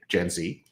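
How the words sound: The letter Z is said the American way, zee.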